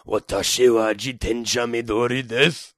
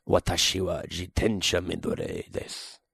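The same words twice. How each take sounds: First: Lightly voiced old man, level tone; a hint of a Yoda-like old man; Japanese old man voice. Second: Deep, soft Japanese line; Japanese sentence. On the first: Repeating the Japanese line as an old man, lightly voiced. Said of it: "almost sound like Yoda". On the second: Showing off Japanese to a friend, in a low soft voice. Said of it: "Say something in Japanese". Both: Shown as a demonstration.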